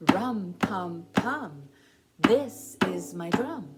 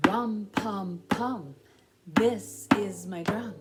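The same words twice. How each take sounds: The two takes are said the same way.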